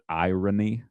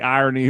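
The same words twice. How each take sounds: First: It uses the standard pronunciation of the word. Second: It uses a Pittsburgh pronunciation of the word. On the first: "I should be saying it irony" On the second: "the way I say irony"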